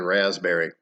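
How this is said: It is said in a non-English accent. "as we would say raspberry"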